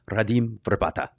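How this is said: The name is said with Czech pronunciation.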